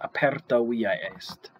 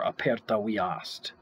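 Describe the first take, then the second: First: Via and est are spoken as separate syllables. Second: Via and est are merged into one syllable.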